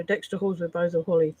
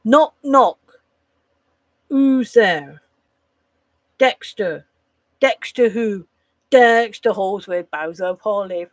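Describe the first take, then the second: First: Fast, quiet, throwaway delivery; rushed mumbled punchline. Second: Loud, proud punchline delivery; punchy joke telling. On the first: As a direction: rattle it off without landing it. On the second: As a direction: sell the knock-knock joke with full energy. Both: Shown as a demonstration. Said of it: "Not like".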